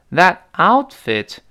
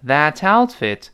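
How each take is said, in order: First: Said in the usual way. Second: "that outfit" joined, t carried onto "out"; slow linked demo of "that outfit"; linked pronunciation. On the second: Shown as a demonstration. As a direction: link "that" into "outfit" as one word. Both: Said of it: "that跟outfit连读".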